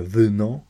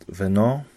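First: Wyno with a deep Russian-style y. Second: Weno with the first vowel said as e; y toward e. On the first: Lecturer showing the wrong deep-y pronunciation of wyno. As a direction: say wyno with a full back y, the wrong way. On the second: Lecturer contrasting correct weno with wrong wyno. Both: Shown as a demonstration. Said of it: "nie będzie wyno".

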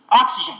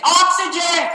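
First: Said in the usual way. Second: High, hammed-up call of OXYGEN; mock exclamation. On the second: Shown as a demonstration. Teacher shows how not to order oxygen, hammed-up cry. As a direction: call out OXYGEN far too dramatically. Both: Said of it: "I'm not gonna say it like that".

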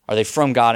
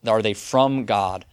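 First: Louder, pressing the question home; emphatic repeat. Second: Asked slowly, weighing each word; slow questioning. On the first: Preacher repeats the question to his congregation, louder and insistent. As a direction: hit it again with force. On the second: Preacher poses the question to the congregation, slow and searching. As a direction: let the question hang, unhurried. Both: Shown as a demonstration.

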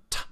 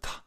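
First: T with the tongue tip on the ridge; crisp t, tongue behind the teeth; alveolar t. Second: Th made with the tongue on the teeth, duller; soft th, tongue against the teeth; dentalized t. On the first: Teacher contrasting the alveolar t with the dental one. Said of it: "dentalized D and T". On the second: Teacher showing the duller dental t of immigrants. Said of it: "a little bit of a duller sound". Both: Shown as a demonstration.

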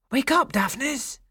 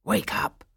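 First: High, rising voiced call; insistent rousing call. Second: Unvoiced, hoarse-whispered call; breathy urgent wake-up; rousing call. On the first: Shepherd shaking Daphnis awake, high insistent call. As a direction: call the name higher to rouse him. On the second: Shepherd shaking Daphnis awake, urgent breathy call. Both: A narrator's reading.

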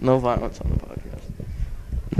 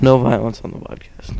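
First: Quiet plea. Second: Said in the usual way. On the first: Real, not acted. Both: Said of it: "I'm gonna keep repeating this".

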